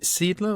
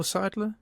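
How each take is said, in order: First: Seidler said as SEED-ler, long ee; SEED-ler pronunciation. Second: Seidler said as SIDE-ler, long i; SIDE-ler pronunciation. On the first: Interviewer unsure of the writer's surname, Seidler as SEED-ler. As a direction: pronounce Seidler with "seed" up front. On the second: Interviewer offering another surname reading, Seidler as SIDE-ler. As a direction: pronounce Seidler with "side" up front. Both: Shown as a demonstration. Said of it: "is it Seidler or Seidler".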